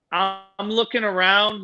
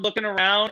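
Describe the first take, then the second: First: Drawn-out, slow look around; slow searching. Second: Said in the usual way. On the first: Retold or imitated. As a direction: stretch the words out.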